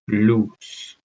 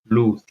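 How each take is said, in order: First: The final sound is an s sound. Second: The final sound is a th sound.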